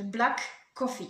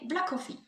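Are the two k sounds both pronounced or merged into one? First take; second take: both; merged. First: Both k sounds are pronounced separately. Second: The two k sounds merge into one. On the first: The speaker calls it wrong. "plutôt que de dire les deux, ce qui serait long" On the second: The speaker calls it right. "on va les superposer"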